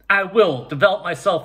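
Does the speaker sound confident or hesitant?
confident. It is said in a loud, confident voice. The speaker is sure of the commitment. The speaker calls it right. "You would say it like that"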